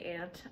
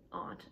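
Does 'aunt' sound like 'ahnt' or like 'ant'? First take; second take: ant; ahnt. First: The word sounds exactly like 'ant'. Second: The word has a broad 'ah' vowel, like 'ahnt'. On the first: "I have my Pittsburgh accent. So when I say aunt, I mean my mom's mom's sister, like not the bug" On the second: "I know some people pronounce it aunt"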